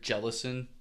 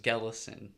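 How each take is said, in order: First: The name begins with a J sound. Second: The name begins with a hard G sound. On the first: The speaker calls it wrong. "some people pronounce it with the J sound" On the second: The speaker calls it right. "hard G"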